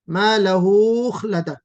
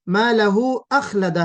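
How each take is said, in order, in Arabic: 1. يتصل 'hu' بالصوت الذي بعده. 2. يُنطق 'hu' منفصلاً بوضوح. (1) "यानी आपने हु को वाव में मिला दिया ... ऐसा हो गया" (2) "मा लहू अखलदह है"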